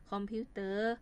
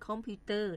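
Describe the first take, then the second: First: Said in the usual way. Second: "คอมพิวเตอร์" with the mai tho tone on the last syllable; mai tho final tone. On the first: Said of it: "แล้วเขียนเป็นเสียงสามัญ". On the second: Shown as a demonstration. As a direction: say "คอมพิวเตอร์", toning the final syllable as if written เต้อ. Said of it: "มีเสียงไม่".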